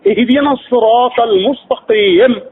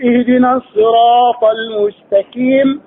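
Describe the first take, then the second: First: المستقيم said with a k sound instead of q; mispronounced with kaf. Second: Slow careful المستقيم with a true qaf; correct qaf. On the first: Teacher demos the wrong المستقيم with kaf. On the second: Teacher models the correct المستقيم with qaf. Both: Shown as a demonstration. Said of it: "قل".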